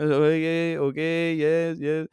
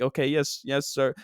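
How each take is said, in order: First: Put-on phony Euro accent, meekly agreeing; put-on Euro trash accent; fake accent. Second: Said in the usual way. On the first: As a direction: nod along in a fake European accent. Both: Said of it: "with my fake accent".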